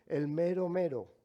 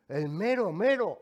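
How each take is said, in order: First: Said in the usual way. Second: "El mero mero" called out much louder and higher; proud boast. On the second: Shown as a demonstration. To the office clerk, "El mero mero" said louder and prouder. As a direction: announce "El mero mero" like a trump card. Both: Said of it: "como decimos en México".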